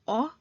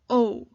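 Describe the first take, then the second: First: The vowel is short, as in 'hot'. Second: The vowel is long, as in 'go'. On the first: The speaker calls it wrong. "Instead of saying O" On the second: The speaker calls it right. "it becomes O because of the magic E"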